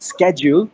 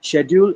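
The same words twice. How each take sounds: First: The word is said with an American pronunciation. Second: The word is said with a British pronunciation. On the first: "schedule is an American pronunciation" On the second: "Schedule is British pron- British pronunciation"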